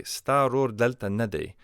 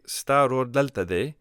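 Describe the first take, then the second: First: "nade" accented on "na", falling after it; emphasize the negative "na" before "de"; stress on NA. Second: Said in the usual way. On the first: Shown as a demonstration. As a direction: slowly say "Staror delta nade", marking the "na". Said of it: "adding the na right before the equative". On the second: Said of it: "Or I could say".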